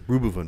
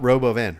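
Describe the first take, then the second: First: It is said in an imitated, unusual pronunciation. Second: It is said in the ordinary, usual pronunciation. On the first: This is how someone else says it. "He says Rubuvun" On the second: This is the usual way to say it. "not Robo van"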